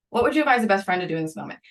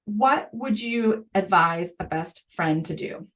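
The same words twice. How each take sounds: First: Said in the usual way. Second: Each word spaced out slowly; slow it right down to land the key question; slow and deliberate. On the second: Shown as a demonstration. Podcast host stressing the key question to teachers, slowly. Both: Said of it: "and the third one, and this one is so essential, is".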